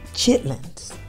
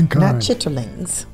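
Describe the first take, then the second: First: The word is said in its short, clipped form. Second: The word is said in its full, longer form. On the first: "And that's what he says"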